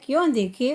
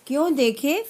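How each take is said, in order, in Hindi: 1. यह सपाट लहजे में चलता है, प्रश्नवाचक लहजे के बिना। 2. इसमें प्रश्नवाचक लहजा है, फिर एक विराम है। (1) "इसने पढ़ा है, क्यों देखे उसके पिताजी। यही कमी होती है" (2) "प्रश्न का उच्चारण करते समय प्रश्न की तरह बोलना है"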